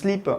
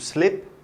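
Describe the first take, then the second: First: The vowel is a tight French 'ee' sound. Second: The vowel is a looser, more open 'i' sound. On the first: "on prononce slip en français" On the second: "c'est moins i, c'est plus et"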